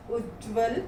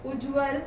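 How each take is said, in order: First: Said in the usual way. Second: उज्ज्वल with a single light "j"; mispronounced. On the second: Shown as a demonstration. Teacher reads the error list, mispronounced उज्ज्वल with single "j". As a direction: say उज्ज्वल as "uj-val", undoubled. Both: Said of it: "व्यंजन संबंधी हैं".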